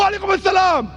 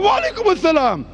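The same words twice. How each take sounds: First: The greeting is said plainly, without much feeling. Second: The greeting is said warmly, with strong feeling.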